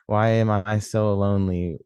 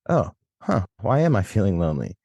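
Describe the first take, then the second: First: It sounds self-pitying, like a complaint. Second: It sounds curious, like a genuine question.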